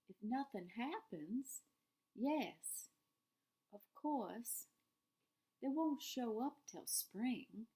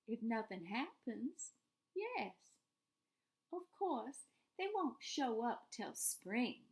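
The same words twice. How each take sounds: First: The line is read in a sadder tone. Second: The line is read in a less sad tone.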